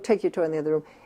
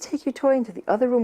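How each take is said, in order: First: It is said in a flat, confident, matter-of-fact tone. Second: It is said in a pleading, unsure, coaxing tone. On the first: The speaker expects the child to obey. The speaker calls it right. "in a very matter-of-fact voice" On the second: The speaker doubts the child will obey. The speaker calls it wrong. "not this way. ... That I'm kind of pleading"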